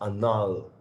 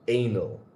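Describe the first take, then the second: First: It is pronounced like the Spanish word. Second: It is pronounced like the English word. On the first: "But I think you pronounce it anal, which anal means anal in Spanish" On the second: "I read it A N A L, and that for me is anal"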